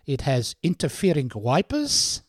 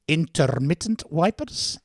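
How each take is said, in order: First: Said in the usual way. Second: "Intermittent wipers" said slowly and carefully; corrected word. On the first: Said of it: "And the girl go". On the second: Retold or imitated. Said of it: "you're right".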